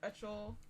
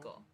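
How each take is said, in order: First: The name sounds like 'Utchel'. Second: The name sounds like 'Ickle'. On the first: "I don't remember this pronunciation" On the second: "I think it's Ickle"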